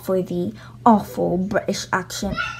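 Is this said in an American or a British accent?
British. It is spoken in a put-on British accent.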